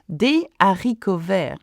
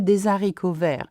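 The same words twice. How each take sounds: First: Des and haricots are said without a linking z. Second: Des and haricots are joined by a linking z. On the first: The speaker calls it right. "We do not make the liaison between des and haricot" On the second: The speaker calls it wrong. "We don't say"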